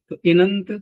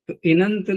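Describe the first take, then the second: Both takes have the same delivery.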